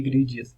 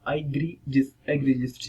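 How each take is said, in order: First: "egregious" said i-GREE-ji-us, ending drawn into two syllables; "egregious" with ji-us at the end, not jis; mispronunciation. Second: "egregious" said i-GREE-jis, in three syllables; "egregious" with a short jis ending; correct pronunciation. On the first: Teacher warns students off this reading, mispronounced "egregious". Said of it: "ना कि egregious". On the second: Teacher models it slowly for students, correct pronunciation of "egregious". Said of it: "नहीं पढ़ेंगे इसको". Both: Shown as a demonstration.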